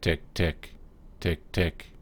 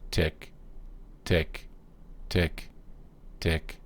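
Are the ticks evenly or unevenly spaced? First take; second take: unevenly; evenly. First: The ticks come at uneven, irregular intervals. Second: The ticks come at even, regular intervals. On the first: The clock is out of beat. The speaker calls it wrong. "it just doesn't sound right" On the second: The clock is in beat. The speaker calls it right. "evenly spaced... tick once every second"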